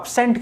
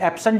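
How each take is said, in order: First: The stress is on the second syllable. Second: The stress is on the first syllable. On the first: It is used as a verb. "Verb है तो second level पर stress होगा" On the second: It is used as a noun. "Noun है तो first level पर stress होगा"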